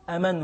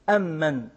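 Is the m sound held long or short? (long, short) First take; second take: short; long. First: The m sound is single and short. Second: The m sound is doubled and held long. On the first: This is another recognized reading of the verse. "بتخفيف الميم" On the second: This is one recognized reading of the verse. "قراءة عاصم التي نقرأ بها أمن بتجديد الميم"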